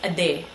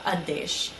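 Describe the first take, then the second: First: The word ends without an sh sound. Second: The word ends with an sh sound.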